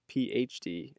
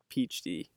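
First: The three letters are said clearly and separately. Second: The letters run together, sounding like peach tea. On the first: The speaker calls it right. "I'm going to try as hard as possible to say PhD" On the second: The speaker calls it wrong. "and not PhD ... It just sounds like I'm saying PhD"

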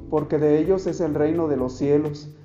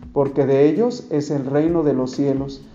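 Both takes have the same delivery.

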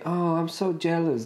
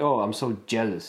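First: It sounds happy and warm. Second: It sounds resentful and bitter.

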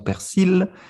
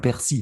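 First: The final L sound is pronounced. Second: The final L sound is silent. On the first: This is how it is said in the south. "Dans le sud, par exemple, nous disons persil" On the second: This is how it is said in the rest of France. "on ne prononce pas le L"

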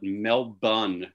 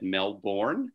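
First: The R sound is not clearly pronounced. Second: The R sound is clearly pronounced. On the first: This is a newcomer's interim attempt at the local form. "So what we do is we call it Melbourne for a while" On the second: This is how a speaker from a rhotic region says it. "I come from a place that's rhotic, where we pronounce our R, so I would have said Melbourne"

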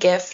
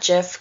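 First: The word begins with a hard g sound. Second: The word begins with a soft j sound. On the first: The speaker calls it right. "I'm saying GIF" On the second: The speaker calls it wrong. "not JIF, because I think that's stupid"

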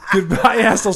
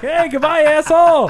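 First: It sounds blunt and sincerely meant. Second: It sounds playful and sarcastic.

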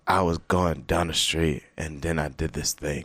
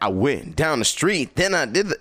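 First: It is said flatly, like ordinary talk. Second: It is said with amplified, exaggerated energy.

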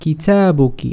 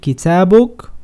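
First: The word ends with a final vowel sound. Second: The word ends with a consonant sound. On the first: "Tu libro en femenino" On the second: "es más fácil decir kitabuk, más simple"

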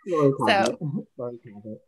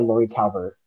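First: The surname sounds like Cabot. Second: The surname sounds like Calvert. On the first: The speaker calls it right. "Lori Cabot. I have to remember that" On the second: The speaker calls it wrong. "I've been saying her name wrong this whole time. I've been pronouncing it Lori Calvert"

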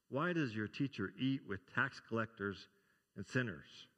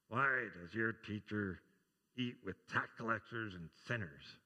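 First: It is said in a clear, full voice. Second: It is muttered in a low, mumbling voice.

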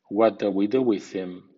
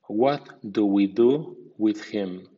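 First: The words are reduced and run together. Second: Every word is pronounced fully and carefully. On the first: "a continuación en versión informal o coloquial" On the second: "primero en estilo formal"

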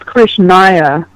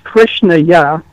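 First: The word is said in a casual, loose pronunciation. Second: The word is said in a careful Sanskrit pronunciation. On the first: The speaker calls it wrong. "which is not Krishnaya in a mantra" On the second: The speaker calls it right. "it's Krishnaya"

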